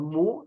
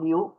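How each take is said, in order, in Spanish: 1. La vocal es un sonido 'oo' simple. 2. Hay un sonido 'y' antes del 'oo'. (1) "en inglés no la pronuncian mu" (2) "sino miu"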